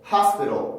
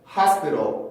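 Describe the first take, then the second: No difference in how they are said.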